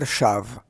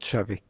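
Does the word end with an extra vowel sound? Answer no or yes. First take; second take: no; yes. First: The word ends on a consonant, no final vowel. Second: The word ends with an added final vowel sound. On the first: The speaker calls it right. "the pronunciation is Shomer Shav" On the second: The speaker calls it wrong. "not Shavi"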